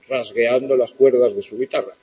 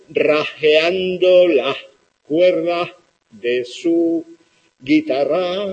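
First: The s sounds are all clearly pronounced. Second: The s sounds are lost or turned breathy. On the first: "escrito en castellano tal cual" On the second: "el camarón de la isla pronuncia algo así como"

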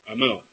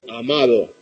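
First: The d between the last vowels is dropped. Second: The d between the last vowels is pronounced.

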